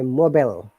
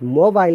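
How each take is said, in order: First: It is said with an American pronunciation. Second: It is said with a British pronunciation. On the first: "Americans do not say mobile. They say mobile" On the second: "mobile is a British English"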